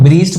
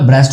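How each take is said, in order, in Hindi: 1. स्वर लंबी ई ध्वनि है। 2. स्वर छोटी e ध्वनि है। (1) "अब इसको लोग ब्रीस्ट पढ़े होते हैं, भाई ब्रीस्ट नहीं होता" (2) "ब्रेस्ट होता है"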